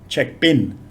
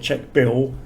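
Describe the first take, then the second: First: The last word ends with an N sound. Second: The last word ends with an L sound. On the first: "they ask for check bin" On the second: "Thais don't ask for check bill"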